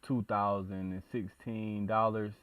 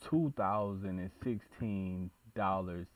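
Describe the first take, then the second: No difference in how they are said.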